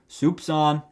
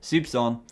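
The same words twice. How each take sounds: First: It is said in a put-on accent. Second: It is said in a normal voice.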